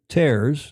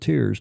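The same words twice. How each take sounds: First: The word rhymes with cares. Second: The word rhymes with cheers. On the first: Rips in tissue. The speaker calls it right. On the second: Drops from crying. The speaker calls it wrong.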